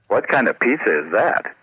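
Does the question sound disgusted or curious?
disgusted. It sounds disgusted, as if the pizza looks gross.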